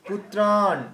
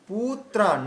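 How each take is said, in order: First: The final vowel is long and slowed. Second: The final vowel is short and rushed. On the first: The speaker calls it right. "যেখানে দীর্ঘ সেখানে গতি কমাতে হবে" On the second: The speaker calls it wrong. "এমন না বলে"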